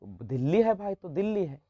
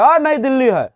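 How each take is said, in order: First: Put-on soft, gentle explanation to a child; lovingly. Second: Loud, blunt reply to a pupil; curt offhand answer. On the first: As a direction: reassure the pupil kindly. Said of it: "उसको प्यार से ना बताइएगा". (बच्चे को प्यार से, नरम आवाज़ में) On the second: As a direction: brush the pupil off. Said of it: "तो क्या ऐसा बोलिएगा तो सही लगेगा?". (रूखा, ऊँची आवाज़ में जवाब) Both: Shown as a demonstration.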